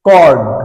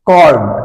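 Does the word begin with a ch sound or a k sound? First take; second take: k; k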